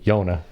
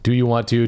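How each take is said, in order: First: The whole phrase is squeezed into two syllables. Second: Every word is pronounced fully and separately. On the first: "a short way of saying, do you want to?"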